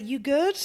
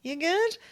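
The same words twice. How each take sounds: First: Said in the usual way. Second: "You good?" pitched much higher with a bright rise; higher perky check-in. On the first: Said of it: "But I was like". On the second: Retold or imitated. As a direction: pop it up high like a friendly thumbs up. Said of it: "Gave him a thumbs up".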